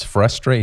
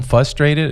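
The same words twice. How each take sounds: First: "frustrated" with both r sounds; corrected frustrated. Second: "frustrated" with the first r dropped; mispronounced frustrated. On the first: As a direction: say "frustrated" with a clear "fr" at the start. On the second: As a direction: say "frustrated" as "fustrated". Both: Shown as a demonstration. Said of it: "It's frustrated".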